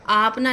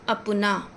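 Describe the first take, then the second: First: The first vowel is long. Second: The first vowel is short. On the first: The speaker calls it wrong. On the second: The speaker calls it right.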